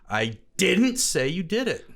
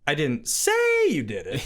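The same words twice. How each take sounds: First: The stress is on the word didn't. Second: The stress is on the word say.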